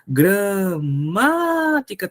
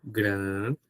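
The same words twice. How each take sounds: First: Gramática very slow, with MÁ held long; stress on MÁ. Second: Gramática in low, soft, separate syllables; Gramática with long pauses between syllables, unemphatic; split syllables. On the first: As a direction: call out gra-MAAA-tica. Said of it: "tá aqui a sílaba forte". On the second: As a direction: break Gramática into gra, ma, ti, ca. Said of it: "Vamos fazer a mesma coisa com a palavra gramática". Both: Shown as a demonstration.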